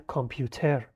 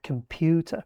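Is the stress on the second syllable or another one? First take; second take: another; second. First: The stress falls on another syllable. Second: The stress falls on the second syllable. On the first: The speaker calls it wrong. "میگن کامپیوتر" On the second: The speaker calls it right. "استرس رو قسمت دوم هست"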